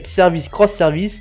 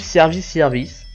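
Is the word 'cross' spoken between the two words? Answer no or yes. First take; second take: yes; no. First: The X is spoken aloud as cross. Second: The X is silent between the words. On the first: "soit ça se prononce cross" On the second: "soit elle ne se prononce pas"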